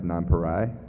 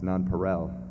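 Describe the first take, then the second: First: The last syllable rhymes with 'why'. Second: The last syllable does not rhyme with 'why'. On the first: The speaker calls it wrong. "I rhymed Nonpareil with Y" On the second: The speaker calls it right. "It's Nonpareil"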